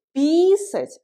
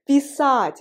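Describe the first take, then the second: First: Писать with a long, high I up front, PEE-sat; stress on first syllable. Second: Писать punched louder on the final A, pee-SAAT; stress on second syllable. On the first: Teacher contrasting the two verbs, stress on the I of писать. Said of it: "l'accent sur le I". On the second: Teacher drilling the verb "to write", stress on the A of Писать. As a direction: hit the A at the end of Писать. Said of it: "l'accent sur le A". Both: Shown as a demonstration.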